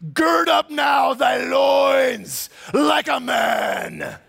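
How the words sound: It is read in a put-on voice.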